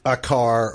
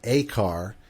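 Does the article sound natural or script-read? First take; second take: natural; script-read. First: The article is said in a natural, casual way. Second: The article is said in a careful, read-aloud way. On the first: The speaker calls it right. "instead of saying like uh" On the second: The speaker calls it wrong. "nobody uses this really in, in natural sentences"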